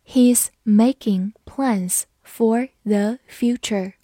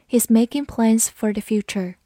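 First: Slow, word-by-word reading; unhurried teacher dictation pace with small gaps; slow model reading. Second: Said in the usual way. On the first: Shown as a demonstration. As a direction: separate every word clearly for learners. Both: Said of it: "好，慢慢来读".

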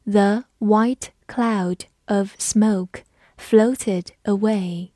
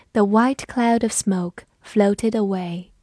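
First: Slow, careful model reading; teacher reading slowly for the class. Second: Said in the usual way. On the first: Shown as a demonstration. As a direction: stretch each word out slowly. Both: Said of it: "我们慢读一遍".

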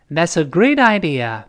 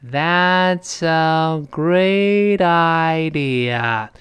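First: Natural-speed linked model sentence; faster reading. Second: Very slow, drawn-out syllable-by-syllable demo. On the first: Teacher shows students the quicker version, natural connected pace. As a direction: read it quicker, running the words together. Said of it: "我们读快点". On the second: Teacher breaks down the linking for students, very slow. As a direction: stretch every syllable right out, linked smoothly. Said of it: "如果非常慢的话". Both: Shown as a demonstration.

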